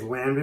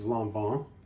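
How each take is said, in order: First: The name is said with plain English sounds. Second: The name is said with French-style nasal vowels. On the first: This is the common, easier way people say it. The speaker calls it wrong. "Most people will say it's Lanvin because it's just an easier way of saying it" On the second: This is how the brand itself says it. The speaker calls it right. "the actual pronunciation is Lanvin"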